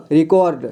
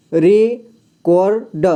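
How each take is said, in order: First: Said in the usual way. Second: record stretched very slowly, syllable by syllable; slow spelled-out reading. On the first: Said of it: "इसे पढ़ेंगे record". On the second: Shown as a demonstration. Teacher sounding out record for a beginner, very slow. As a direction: drag out record so the child hears each part. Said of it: "को के बाद पढ़ना है".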